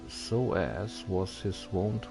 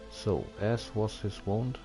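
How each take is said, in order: Both takes have the same delivery.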